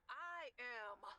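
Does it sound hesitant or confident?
confident. It sounds confident and convinced.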